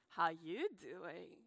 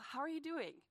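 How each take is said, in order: First: It is said in Joey's flirty put-on voice. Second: It is said in a plain, sincere voice.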